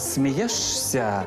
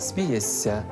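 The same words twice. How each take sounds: First: An sh sound comes before the ending. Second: A long s sound comes before the ending. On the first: "Пишемо" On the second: "а вимовляємо"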